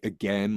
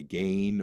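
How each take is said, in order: First: The vowel has an American sound. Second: The vowel has a Canadian sound. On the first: "instead of a, again" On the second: "they'd say again"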